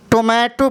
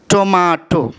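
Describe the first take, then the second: First: टोमेटो with a long "ay" vowel, tuh-MAY-to; American tomato. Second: टोमाटो with a broad "ah" vowel, tuh-MAH-to; British tomato. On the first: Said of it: "American में, टोमेटो पढ़ते हैं". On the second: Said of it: "British में". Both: Shown as a demonstration.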